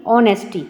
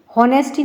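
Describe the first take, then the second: First: ऑनेस्टी starting straight on the vowel, no h; ऑनेस्टी with the h silent, o-nes-ty. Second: हॉनेस्टी said with a spoken h at the start; हॉनेस्टी with a breathy h before the o; wrong h sound. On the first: Teacher showing students the correct reading, silent h. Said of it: "एच इसमें silent रहता है". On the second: Teacher showing students the wrong reading, h sounded. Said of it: "हॉनेस्टी नहीं पढ़ेंगे". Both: Shown as a demonstration.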